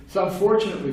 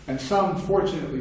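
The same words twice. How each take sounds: First: Fortunately punched higher and louder; stress on fortunately. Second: Said in the usual way. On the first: Shown as a demonstration. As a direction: hit the word fortunately hard. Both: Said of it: "you can see where this is going".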